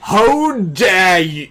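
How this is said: It is said in a Draco-like voice.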